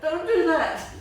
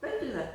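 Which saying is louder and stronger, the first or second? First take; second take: second; first. First: It is said much louder and more forcefully. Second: It is said at a normal, softer volume.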